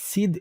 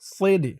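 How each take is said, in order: First: The s sound is thin and light. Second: The s sound is heavy and emphatic. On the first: The speaker calls it wrong. "একেবারে সিদ সিদ এমন বলবেন না" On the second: The speaker calls it right. "বলতে হবে সৈদে সৈদে। সওয়াদের উচ্চারণটা ঠিক রাখতে হবে।"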